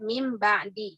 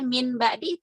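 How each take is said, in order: First: The first word ends with an m sound. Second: The first word ends with an n sound. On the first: It follows the Quranic recitation rules. "jadi membacanya itu jadi mim gitu ya" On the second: It is the ordinary pronunciation without recitation rules. "pengucapannya seperti biasa aja"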